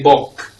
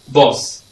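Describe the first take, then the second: First: The s sound is dropped, ending only in k. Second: The k sound is dropped, ending only in s. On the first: "Or we say bok" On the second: "we always swallow this sound K"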